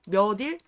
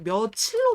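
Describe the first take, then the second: First: The middle consonant is a plain d sound. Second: The middle consonant is an aspirated ch sound. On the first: The speaker calls it wrong. "몇 딜이라고 발음하세요? 이렇게 발음하는 사람 있어요?" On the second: The speaker calls it right. "며칠로 발음이 돼요"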